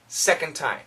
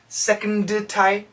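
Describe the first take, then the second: First: The D runs straight into the T. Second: The D is released separately before the T. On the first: The speaker calls it right. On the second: The speaker calls it wrong.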